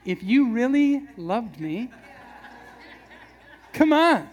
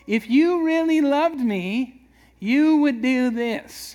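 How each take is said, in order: First: Slow, wheedling plea ending in a laughing, louder come on; guilt-trip line. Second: Drawn-out, higher, louder whiny plea; guilt-trip plea. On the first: Husband pulling the love line on his wife, laughing whine. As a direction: pull the guilt card with a grin. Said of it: "you gotta pull out the line". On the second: Husband guilt-tripping his wife for affection, whiny slow plea. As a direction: lay on the guilt slowly, pleading. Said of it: "How many have ever pulled that". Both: Pretend.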